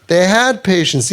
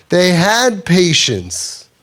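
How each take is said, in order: First: Said in the usual way. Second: HAD drawn out slowly, each word weighed; slow emphatic stress. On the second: Shown as a demonstration. Rabbi stressing the family's patience to his listeners, slow and weighty. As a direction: lean on "had", let the line land slowly.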